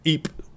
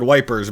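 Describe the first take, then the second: First: The name is said the French way. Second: The name is said the British way. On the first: "Ypres by the French" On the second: "it was called Wipers by the British"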